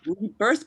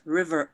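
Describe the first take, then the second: First: The word is said clearly and fully. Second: The word is mumbled and sounds like river. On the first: The speaker calls it right. "rebirth becomes like river" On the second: The speaker calls it wrong. "mumble the words, rebirth becomes like river"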